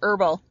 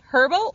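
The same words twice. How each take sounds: First: The H at the start is silent. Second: The H at the start is pronounced.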